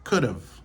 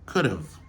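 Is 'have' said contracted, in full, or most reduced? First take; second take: contracted; contracted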